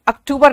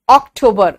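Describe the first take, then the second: First: अक्टूबर as "ak-TOO-bar"; wrong Hindi form. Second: अक्टूबर as "ok-TOH-ber"; English अक्टूबर, o in both first syllables; correct English pronunciation. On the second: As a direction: model अक्टूबर with round o sounds. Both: Shown as a demonstration. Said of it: "अक्टूबर नहीं".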